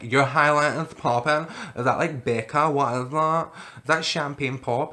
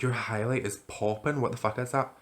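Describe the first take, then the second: First: Put-on loud, drawn-out drunk voice; drunken gushing. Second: Said in the usual way. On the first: Drunk girl admiring a stranger's glitter highlighter, drunken gushing. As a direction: gush like you're hammered, loud and slow. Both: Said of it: "I was that drunk".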